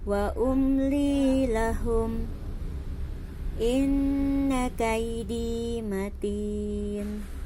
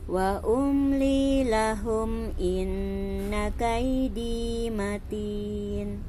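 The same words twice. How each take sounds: First: There is a stop and breath before 'inna'. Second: It runs on into 'inna' without any stop. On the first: "Yang pertama jaiz itu kita berhenti" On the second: "yang kedua uh, Umi bacakan bahwa jim itu jaiz itu kita wasal"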